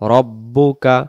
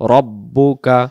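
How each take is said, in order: No difference in how they are said.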